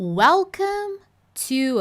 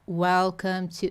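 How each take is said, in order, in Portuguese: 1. É dito de forma expressiva, com entonação animada. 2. É dito de forma monótona, com pouca entonação. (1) "Finge que você é um ator, uma atriz, vai lá, ó" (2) "Eu quero que você não fica welcome to. Não!"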